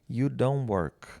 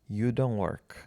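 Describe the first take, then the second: First: The t at the end of don't is dropped. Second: The t at the end of don't is dropped.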